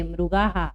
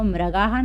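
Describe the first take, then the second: First: "मृगाः" as "mru-gaa-haa", u after the r; correct pronunciation. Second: "मृगाः" misread as "mra-gaa-haa"; wrong pronunciation. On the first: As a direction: round the first syllable of "मृगाः" to "mru". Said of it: "इसको मृगाः नहीं पढ़ेंगे". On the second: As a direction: put an "a" after the r in "मृगाः". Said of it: "नहीं पढ़ेंगे". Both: Shown as a demonstration.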